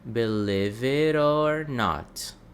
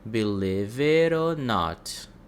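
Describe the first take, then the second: The two takes are said the same way.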